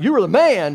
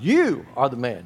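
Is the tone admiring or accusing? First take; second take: admiring; accusing. First: It sounds admiring, like casual praise. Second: It sounds accusing, like a grave charge.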